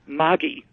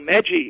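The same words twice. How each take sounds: First: It is the pronunciation used in Switzerland. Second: It is the pronunciation used in Australia. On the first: The speaker calls it right. "and they call it Maggi" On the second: The speaker calls it wrong. "which we call Maggi in Australia"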